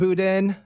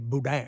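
First: The final n sound is pronounced. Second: The final n sound is silent. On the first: The speaker is from out of town. "they know that you're from out of town" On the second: The speaker is a local. "that's how the Creole and Cajun, they say boudin"

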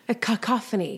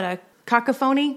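First: The start sounds like 'kuh-koff'. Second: The start sounds like 'caca'. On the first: The speaker calls it right. "cacophony actually sounds sort of pretty" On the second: The speaker calls it wrong. "I say it wrong on purpose ... Because it sounds like caca"

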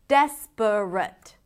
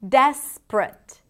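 First: The word is said with three syllables. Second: The word is said with two syllables. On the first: "instead of" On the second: "Reducing three syllables into two"

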